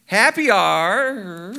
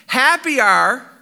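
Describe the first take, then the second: First: Very slow, hesitant; even slower tryout. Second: Slow, drawn-out opening; slow tryout. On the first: Preacher trying the paraphrase again, even slower. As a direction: stretch the words out more. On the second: Preacher trying out the paraphrase, drawn out slowly. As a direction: test the words slowly. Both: Shown as a demonstration. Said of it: "I'll read it for you".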